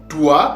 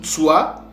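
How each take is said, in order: First: The name begins with a t sound. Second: The name begins with a nasal before s. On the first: "le S se confond avec le, le T" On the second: "ou avec la nasale"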